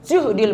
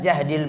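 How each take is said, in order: First: The first vowel is a rounded 'u' sound. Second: The first vowel is an open 'a' sound. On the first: A trial felt too heavy to bear. "yang kedua dengan dhammah juhdil" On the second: A heavy trial. "Yang pertama tadi dengan fathah jahdil"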